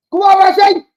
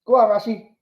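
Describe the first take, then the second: First: High, loud rising cheer; cheering shout. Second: Said in the usual way. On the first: Real, not acted. Fan yelling Rashi through on goal, high loud cheer. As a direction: yell him through on goal. Urging Rashford on TV.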